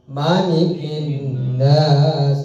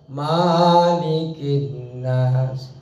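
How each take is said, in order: First: The vowel after the m is short. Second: The vowel after the m is long. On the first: The speaker calls it right. "di dalam surah An-Nas tidak dipanjangkan" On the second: The speaker calls it wrong. "tidak malikin nas"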